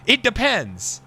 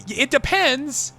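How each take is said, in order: First: Said in the usual way. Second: Drawn out slowly, a mock cop stalling; slow hedge. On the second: Mocking a cop at the polls, drawn out slowly. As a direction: stretch "depends" like a cop buying time.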